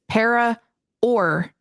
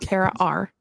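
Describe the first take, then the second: First: The second word sounds like 'or'. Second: The second word sounds like 'are'. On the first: The speaker calls it right. "it is para or normal" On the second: The speaker calls it wrong. "not para are"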